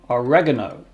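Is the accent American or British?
American. It is said with an American accent.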